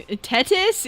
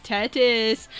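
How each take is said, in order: First: "Tetis?" read with a rising, doubtful tune; puzzled question. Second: "Tetis." said flat and falling, settled; confirming. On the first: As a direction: ask "Tetis?" as if checking the word. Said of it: "Yes, Tetis". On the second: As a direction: confirm "Tetis." with a firm end. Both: Shown as a demonstration.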